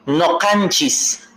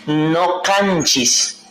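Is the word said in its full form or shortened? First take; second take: full; full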